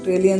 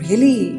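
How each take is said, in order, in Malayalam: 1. "really" എന്ന വാക്ക് താഴ്ന്ന പിച്ചിലാണ് പറയുന്നത്. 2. "really" എന്ന വാക്ക് ഉയർന്ന പിച്ചിലാണ് പറയുന്നത്. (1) "ലോ പിച്ചിലും ചോദിക്കാം" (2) "ഹൈ പിച്ചിലും ചോദിക്കാം"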